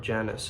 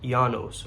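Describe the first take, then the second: First: The name begins with a J sound. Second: The name begins without a J sound.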